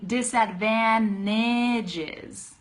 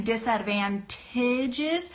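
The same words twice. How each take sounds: First: "disadvantages" slowly, as "disadvannages"; drawn-out "disadvantages" without the T; dropped T. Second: "disadvantages" with a clearly sounded T in "-tages"; careful "disadvantages", T fully released; full T. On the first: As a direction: say "disadvantages" with N replacing NT. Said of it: "I'm saying disadvantages". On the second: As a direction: stretch "disadvantages" and pronounce the T. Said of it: "Instead of saying disadvantages". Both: Shown as a demonstration.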